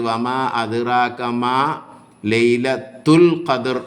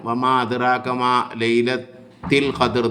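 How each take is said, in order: First: The vowel after laylat is a 'u' sound. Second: The vowel after laylat is an 'i' sound. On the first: The speaker calls it right. "ഈ രണ്ടാമത്തത് ലൈലത്തൂ എന്നാണ്" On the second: The speaker calls it wrong. "ചില ആളുകൾ ... എന്ന് ഓതും ... അങ്ങനെയല്ല"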